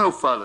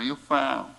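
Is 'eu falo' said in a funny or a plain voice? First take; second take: plain; funny. First: It is said in an ordinary, plain voice. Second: It is said in a funny, put-on voice. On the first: The speaker calls it wrong. "Mas não eu falo assim" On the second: The speaker calls it right. "engraçado"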